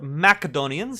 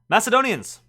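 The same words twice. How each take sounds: First: It is said with a Latin-style pronunciation. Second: It is said with an ordinary English pronunciation.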